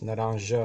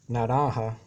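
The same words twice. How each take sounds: First: The j is not pronounced like an h. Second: The j is pronounced like an h. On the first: "is pronounced naranja in Portuguese" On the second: "Spanish, the J is pronounced like an H"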